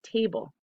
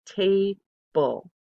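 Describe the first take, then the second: First: Said in the usual way. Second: Table said louder, two firm beats; syllable by syllable. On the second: Shown as a demonstration. Teacher sounding out table with hand under chin. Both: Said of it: "Goes down twice".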